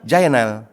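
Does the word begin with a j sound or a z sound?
j. The word begins with a j sound.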